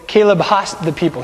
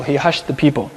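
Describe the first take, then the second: First: "hushed" said as "hassed", with ah and s; Hebrew pronunciation. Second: Said in the usual way. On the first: Shown as a demonstration. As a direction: swap "hushed" to Hebrew-style "hahssed". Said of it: "the Hebrew is has". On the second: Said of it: "We have the English word hush".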